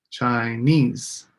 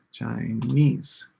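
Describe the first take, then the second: First: "Chinese" with the weight on NESE; stress on NESE. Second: "Chinese" rising, NESE leaned on; rising stress on NESE. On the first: Teacher modelling the stressed syllable for students. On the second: Teacher repeating the word with a rise for the class. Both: Shown as a demonstration. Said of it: "put a little star on each one that has the stress syllable".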